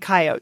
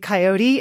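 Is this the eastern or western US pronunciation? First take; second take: western; eastern. First: It is said the western US way. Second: It is said the eastern US way.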